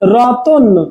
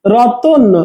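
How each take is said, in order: The two takes are said the same way.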